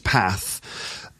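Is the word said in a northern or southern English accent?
northern. It is said in a northern English accent. "in the north it's path"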